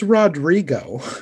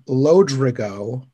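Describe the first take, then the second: First: The name begins with an R sound. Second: The name begins with an L sound. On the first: The speaker calls it right. "It's Rodrigo" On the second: The speaker calls it wrong. "In this version, they call him Lodrigo"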